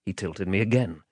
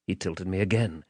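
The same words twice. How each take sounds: The two takes are said the same way.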